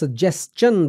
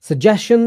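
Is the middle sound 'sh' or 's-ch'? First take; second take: s-ch; sh. First: The middle has an 's-ch' sound. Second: The middle has a plain 'sh' sound. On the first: The speaker calls it right. "बोलना है" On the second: The speaker calls it wrong. "नहीं बोलना"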